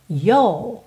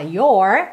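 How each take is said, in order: First: The vowel is lengthened with no R, British style. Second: The final R is curled, American style.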